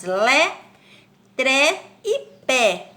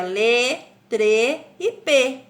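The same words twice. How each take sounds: First: "Lé, tré e pé" with open e, each drawn out; open accented É. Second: "lê, trê e pê" with closed e, slowly drawn out; closed unaccented Ê. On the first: Teacher showing pupils how accented words sound, open e in "Lé, tré e pé". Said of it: "como que nós as pronunciamos". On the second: Teacher showing the sound without the accent, closed e in "lê, trê e pê". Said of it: "Senão ficaria". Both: Shown as a demonstration.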